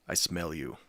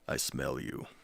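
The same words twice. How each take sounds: First: It is said in a normal voice. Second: It is said in a deep voice.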